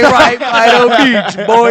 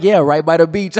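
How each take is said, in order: First: Loud, high mock-Jamaican holler; over-the-top fake Jamaican, much louder; fake Jamaican accent. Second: Said in the usual way. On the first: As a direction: shout it like a phony Jamaican, hammed up. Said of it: "he's using this fake Jamaican accent". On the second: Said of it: "when you were like".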